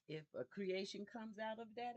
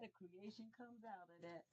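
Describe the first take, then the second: First: Said in the usual way. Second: Much softer hushed repeat; soft echo. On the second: Shown as a demonstration. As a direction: let it drop to a murmured echo. Echoes own phrase softly.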